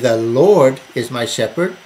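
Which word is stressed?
Lord. The stress is on "Lord".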